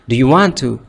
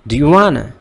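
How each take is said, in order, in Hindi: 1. हर शब्द अलग-अलग और पूरा बोला जाता है। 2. शब्द आपस में जुड़कर 'wanna' की तरह बोले जाते हैं।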